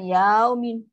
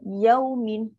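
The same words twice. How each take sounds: First: The 'ya' is stretched out long. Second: The 'ya' is short and soft. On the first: The speaker calls it wrong. "tu ya pula jadi panjang" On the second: The speaker calls it right. "kan lembut"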